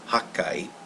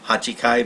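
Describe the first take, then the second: First: The 'chi' is dropped and the consonant doubled. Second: The full syllable 'chi' is said in the middle. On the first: "but also could be Hakkai" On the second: "eight could be Hachikai"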